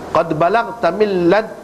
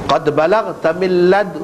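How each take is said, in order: The two takes are said the same way.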